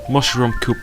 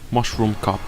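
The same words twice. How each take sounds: First: The last word has a long 'oo' vowel. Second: The last word has a short 'uh' vowel. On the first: The speaker calls it wrong. "I said coop" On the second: The speaker calls it right. "but it's cup"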